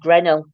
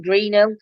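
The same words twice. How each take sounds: First: "Grenell" as GREN-ul; short e in Grenell; village pronunciation. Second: "Greenhill" with a long ee; Greenhill, said as it is written; outsider pronunciation. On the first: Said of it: "speak to somebody in village". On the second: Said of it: "I'd have called it". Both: Shown as a demonstration.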